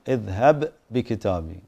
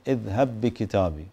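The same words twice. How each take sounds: First: The two b sounds are pronounced separately. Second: The two b sounds merge into one doubled b. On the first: "ما يجب الإدغام" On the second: "الأحوط استحبابا أن تدغم"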